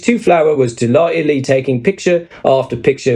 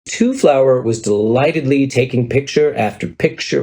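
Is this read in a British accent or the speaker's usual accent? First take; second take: British accent; usual accent. First: It is read in a put-on British accent. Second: It is read in the speaker's usual accent.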